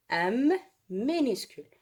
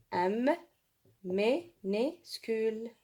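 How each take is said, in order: First: Said in the usual way. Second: "M", then "minuscule" slowly split as mi-nu-scule; syllable-by-syllable dictation. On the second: Shown as a demonstration. Teacher writing for pupils, slow syllable dictation. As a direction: say "M minuscule" with a gap after each syllable.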